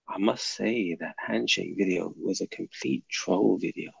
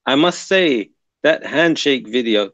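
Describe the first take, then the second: First: Soft, lower imitation of a viewer's accent; Ghazwat al-Rus's accent. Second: Said in the usual way. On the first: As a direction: put on the commenter's accent, low and quiet. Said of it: "let me do it in your, in your accent". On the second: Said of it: "Well, let me do it in your".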